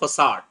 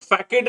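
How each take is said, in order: First: The middle consonant is an s sound. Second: The middle consonant is a k sound. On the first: The speaker calls it right. "इसका सही pronunciation होता फसाड" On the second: The speaker calls it wrong. "फैकेड नहीं होता"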